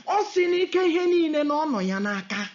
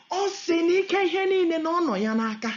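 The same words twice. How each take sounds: The two takes are said the same way.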